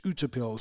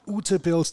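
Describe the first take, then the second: First: Ute Pilz with a slight Norwegian lilt; Norwegian-influenced pronunciation. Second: Ute Pilz said the German way; German pronunciation. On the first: Host corrects himself on the name, Norwegian-style Ute Pilz. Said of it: "a little bit of Norwegian influence". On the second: Host checks how the brewery name is said, German pronunciation of Ute Pilz. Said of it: "the German pronunciation". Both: Shown as a demonstration.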